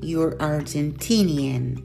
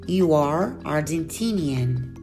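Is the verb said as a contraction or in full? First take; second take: contraction; full. First: The verb is reduced and joined to the pronoun. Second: The verb is said in full as two words. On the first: "seguida da forma contracta ou forma reduzida" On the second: "sempre a forma completa"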